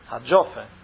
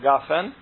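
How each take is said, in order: First: It starts with a j sound and an o vowel. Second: It starts with a hard g and an a vowel. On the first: The speaker calls it right. "a gimel egy ponttal, a dagessel, akkor az dzs" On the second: The speaker calls it wrong. "és nem a gafen"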